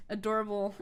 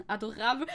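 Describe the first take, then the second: First: Said in the usual way. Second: "Adorable" said the French way, ah-do-RAHB; French "Adorable", ending in -ahb, not -uh-bul; French pronunciation. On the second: Shown as a demonstration. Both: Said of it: "how do you say adorable?".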